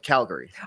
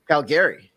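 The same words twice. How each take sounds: First: The stress falls on the first syllable. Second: The stress falls on a later syllable. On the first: "instead of Calgary" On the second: "He puts the emphasis on the, the back-"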